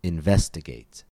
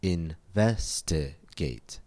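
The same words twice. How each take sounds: First: Investigate said whole, stress on VES; stress on second syllable. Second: Investigate slowly split, in-ves-ti-gate; slow, softer Investigate, a gap after each syllable. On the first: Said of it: "we find the stress on ve". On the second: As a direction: break Investigate into four separate syllables. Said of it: "Investigate has four syllables". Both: Shown as a demonstration.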